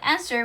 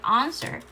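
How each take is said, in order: First: The word is said in a plain American accent. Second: The word is said in a put-on British accent. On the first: "The way I said answer" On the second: "made it sound answer"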